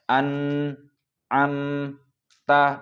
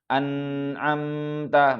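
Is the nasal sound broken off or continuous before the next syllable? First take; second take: broken; continuous. First: The nasal sound is cut off abruptly. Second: The nasal sound flows on without a break. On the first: The speaker calls it wrong. "tidak boleh putus suaranya. Maka tidak boleh kita baca" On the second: The speaker calls it right. "tapi ... maka tidak boleh putus suaranya"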